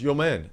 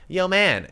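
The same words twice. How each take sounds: First: Put-on lower, softer take on the kid; deep-voiced imitation. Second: Put-on the kid's voice, pitched up; higher-voiced imitation. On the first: Storyteller imitating the kid on the bus, deepened voice. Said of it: "I'm making my voice really deep". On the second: Storyteller showing how the kid really sounded, higher voice. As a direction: imitate him in a higher, undeepened voice. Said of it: "but it should be like".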